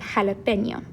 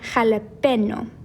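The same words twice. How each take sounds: First: The consonant before the final vowel is ny. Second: The consonant before the final vowel is plain n. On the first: The word is written with the tilde. The speaker calls it right. "instead of jalapeno" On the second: The word is written without the tilde. The speaker calls it wrong. "if we didn't have this marker above jalapeno, it would sound like jalapeno"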